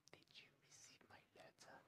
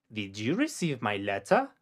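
First: Faint whispered echo of "Did you receive my letter?". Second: Said in the usual way. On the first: Shown as a demonstration. Teacher whispering the sentence back for the learner. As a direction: breathe it with no voice at all.

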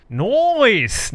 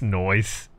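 First: "Noise!" called out higher and louder, falling; mock exclaim. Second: Said in the usual way. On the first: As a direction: blurt "Noise!" like an alarm. Repeats word two ways.

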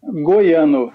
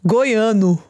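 First: Brazilian Portuguese model. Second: "Goiano" in a light American accent, vowels a bit open. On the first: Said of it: "you say it". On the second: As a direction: try "Goiano" like an American learner. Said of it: "With an American accent, but it's correct". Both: Shown as a demonstration.

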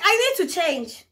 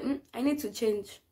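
First: Higher, louder, slower demand; insistent repeat. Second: Said in the usual way. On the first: Retold or imitated. Patient to companion who said "Huh?", loud insistent demand. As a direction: spell it out loudly and slowly.

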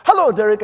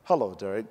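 First: High, booming greeting; loud, over-the-top American welcome; loud American woman. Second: Low, restrained British greeting; understated, low British hello; reserved British greeting. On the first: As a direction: belt out a brash hello. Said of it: "she's loud and". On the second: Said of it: "The British are very what?". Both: Acted.

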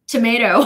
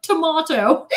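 First: "Tomato" with American "may" middle, louder; American pronunciation. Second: "Tomato" with English "mah" middle, raised and loud; English pronunciation. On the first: American tourist repeating an order to a sandwich man, "Tomato" with a loud MAY. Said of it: "there is an American tourist". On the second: Exasperated customer translating for the sandwich man, loud "Tomato" with MAH. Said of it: "I, like, yelled it out". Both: Retold or imitated.

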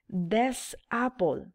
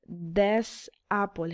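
First: Said in the usual way. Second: "This apple" stretched out very slowly, with stress on "This"; teacher slowing "This apple" down so the class can hear it; drawn-out model of "This apple"; slow demo. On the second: Shown as a demonstration.

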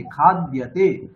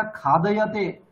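First: खाद्यते slow, with d and y joined; no vowel between द and य in खाद्यते, drawn out slowly; corrected pronunciation. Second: खादयते with an extra "a" after द; four open syllables in खादयते; wrong pronunciation. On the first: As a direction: say खाद्यते as khad-ya-te. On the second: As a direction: say खादयते as kha-da-ya-te. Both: Shown as a demonstration. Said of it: "ऐसा नहीं है".

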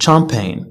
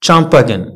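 First: Champagne as "sham-pain"; silent G. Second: Champagne as "cham-pa-gen"; sounded G. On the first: Teacher giving the correct word, silent G. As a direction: end champagne on N with no G. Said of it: "G is often not pronounced". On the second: Teacher showing the mistake to avoid, sounded G. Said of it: "ما كنقولوش". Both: Shown as a demonstration.

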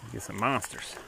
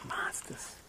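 First: Said in the usual way. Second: Whispered monsters; hushed Monsters. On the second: Shown as a demonstration. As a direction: breathe the word Monsters.

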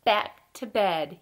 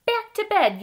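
First: Mild storybook yell. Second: High, loud storybook yell. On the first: Fred answers Ted's call to bed, slow mild yell. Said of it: "yelled Fred". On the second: Ted shouts to Fred about switching rooms, high excited yell. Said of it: "yelled Ted". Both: A narrator's reading.

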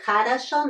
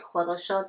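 First: Хорошо with unstressed o's turned to a, stress at the end; correct хорошо. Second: Хорошо with every o pronounced as a full o; wrong хорошо. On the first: Teacher showing how we pronounce it, reduced vowels in хорошо. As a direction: say хорошо as "kha-ra-SHO". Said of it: "Stress is here, so we pronounce". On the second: Teacher warning students not to say it so, full o's in хорошо. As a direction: say хорошо as "kho-ro-sho". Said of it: "not хорошо". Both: Shown as a demonstration.

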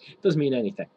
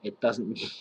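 First: Said with a laugh, a bit louder; giggling while repeating it; laughing through it. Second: Said in the usual way. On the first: Real, not acted. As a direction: laugh off the line as you say it.

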